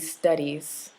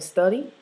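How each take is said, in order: First: The final s sound is clearly pronounced. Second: The final s sound is dropped. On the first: The speaker calls it right. "articulate or pronounce the final s" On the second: The speaker calls it wrong. "instead of"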